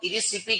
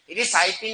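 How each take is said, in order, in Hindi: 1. दूसरा अक्षर 'si' बोला जाता है। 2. दूसरा अक्षर 'sai' बोला जाता है। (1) "वैसे तो इरिसिपी कहते हैं इसे" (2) "इरिसाइपी नहीं कहते"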